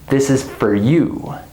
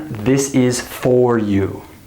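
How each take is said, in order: First: The word for is reduced and quick. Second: The word for is said in full. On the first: The speaker calls it right. "It's reduced. It's said very fast" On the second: The speaker calls it wrong. "I don't say this is for you"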